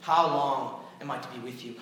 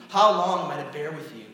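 First: Said in the usual way. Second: Louder exasperated rebuke on HOW; exasperated louder repeat. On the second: Acted.

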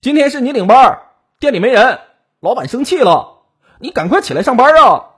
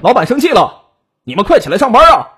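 First: High, forceful yell through a door; raised, pressing holler from outside; loud shouting. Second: High, loud call through a door; raised, irritated yell to hurry them up; annoyed shouting. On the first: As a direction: shout urgently to rouse a coworker. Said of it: "大喊道". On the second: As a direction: holler impatiently at sleeping coworkers. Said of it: "没好气地喊他们". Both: A narrator's reading.

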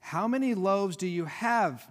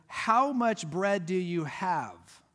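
First: Said in the usual way. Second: "How much bread do you have?" slowed way down, each word weighted; slow stressed question. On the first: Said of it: "I want you to notice something here". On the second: Shown as a demonstration. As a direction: stretch out "How much" to make the point land. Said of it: "notice something here very important".

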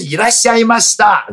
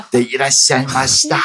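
First: High, louder honorific greeting; polite Japanese welcome. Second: Fast, formal honorific Japanese; polite Japanese. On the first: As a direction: greet like a shop clerk. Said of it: "不是 来了来了". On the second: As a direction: rattle off the polite form. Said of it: "重新学敬语". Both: Shown as a demonstration.

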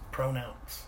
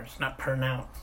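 First: "Pronounce" said pro-nounce, clear long o; right pronounce. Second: "pronounce" said as per-nounce, the wrong way. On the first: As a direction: say "Pronounce" with a full "pro" start. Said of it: "P R O". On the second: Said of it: "P E R". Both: Shown as a demonstration.

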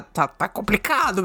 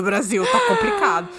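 First: Said in the usual way. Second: High exaggerated "Tá complicado"; mock despair. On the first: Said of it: "first plain take". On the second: Real, not acted. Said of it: "exaggerated repeat".

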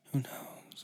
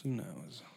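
First: Whispering. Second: Said in the usual way. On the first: Pretend. Repeated whispered.

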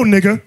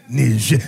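First: Said in the usual way. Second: Low "Niger" as nee-ZHAIR; "Niger" said the French way, imitating objectors; mock French pronunciation. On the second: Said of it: "Don't pronounce it like that no more".

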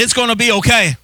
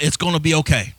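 First: Higher and firmer, a plain proclamation; declared with meaning; like you mean it. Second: Said in the usual way. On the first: Shown as a demonstration. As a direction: say it with conviction this time. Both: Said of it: "Come on, say it like you mean it".

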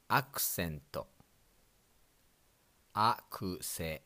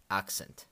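First: Accent as "akusento", flat Japanese syllables; katakana pronunciation. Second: Accent with English stress on the first syllable, "AK-sent"; plain English accent; English pronunciation. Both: Shown as a demonstration. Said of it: "In English".

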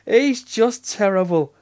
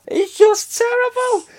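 First: Said in the usual way. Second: 1 laughing, high. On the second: Real, not acted. Delighted mock outrage.

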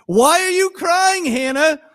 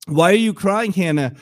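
First: High, loud, baffled question; exasperated husband. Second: Said in the usual way. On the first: Acted. Husband asking his crying wife, hammed-up exasperation. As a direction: question her like a clueless husband. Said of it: "put yourself in the story". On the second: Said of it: "Elkanah would ask".

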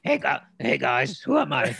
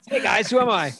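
First: Loud muffled shout from inside a helmet. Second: High, loud voice muffled inside a helmet. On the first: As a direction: redo it, shouting through a helmet. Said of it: "Or no". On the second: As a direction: talk like your head is stuck in a helmet. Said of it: "Pat Mahomes does look dumb in a helmet". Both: Pretend.

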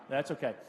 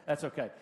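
No difference in how they are said.

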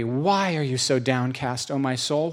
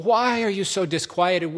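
First: Said in the usual way. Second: Rising exasperation. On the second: Acted. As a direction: pitch climbing higher, pleading at the soul. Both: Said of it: "Or Psalm forty-two and forty-three".

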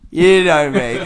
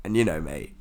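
First: YOU KNOW ME punched louder and higher; emphatic repeat. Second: Said in the usual way. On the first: Real, not acted. Class clown owning up to friends, "You know me" said high and loud. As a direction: hit "You know me" hard, pitched up.

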